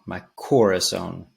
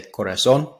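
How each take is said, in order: First: "corazón" with a heavy first syllable; anglicized stress on COR. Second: "corazón" stressed on its last syllable; stress on final O. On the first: Teacher showing how he says it in the song, "corazón" stressed first. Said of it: "putting that emphasis on the C O R". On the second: Teacher showing proper Spanish, "corazón" stressed at the end. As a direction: land on the -zón of "corazón". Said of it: "accent is on the O". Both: Shown as a demonstration.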